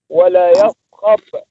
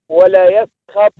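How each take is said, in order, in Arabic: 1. تُنطق الكلمة بصوت السين العادية. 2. تُنطق الكلمة بصوت الصاد المفخمة. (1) "والسين" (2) "تنطق بالصاد"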